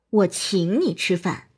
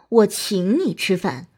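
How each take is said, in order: First: The stress is on the word 请. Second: The stress is on the word 请.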